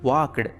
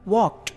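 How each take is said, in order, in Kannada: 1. ಕೊನೆಯ sound ಡಿ ತರ ಕೇಳಿಸುತ್ತದೆ. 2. ಕೊನೆಯ ಸೌಂಡ್ ಟಿ ತರ ಕೇಳಿಸುತ್ತದೆ. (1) "ವಾಕ್ಡ್ ಅನ್ನೋದಕ್ಕಿಂತ" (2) "ಟಿ ಸೌಂಡ್ ರೀತಿ ನಾವು ಅದನ್ನು ಪ್ರೊನೌನ್ಸ್ ಮಾಡಬೇಕು"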